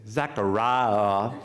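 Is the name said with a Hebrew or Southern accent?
Southern. It is said in a Deep South accent.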